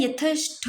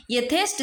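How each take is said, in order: First: यथेष्ट drawn out, ending 'ṭho'; wrong aspirated ending. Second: यथेष्ट ending in a dry 'ṭ'; correct unaspirated ending. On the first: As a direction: say यथेष्ट slowly as 'ya-thesh-ṭho'. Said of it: "लिखते तो गलत है". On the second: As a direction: say यथेष्ट as 'ya-thesh-ṭ', no puff. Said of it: "यथेष्ट सही है". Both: Shown as a demonstration.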